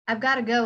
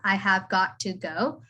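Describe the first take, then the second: First: The words are contracted and blended into 'gotta'. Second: Every word is said fully and separately. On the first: This is how it is said in everyday speech. "I would say it when I'm speaking" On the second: This is the full written form of the sentence. "in the sentence, I have got to go"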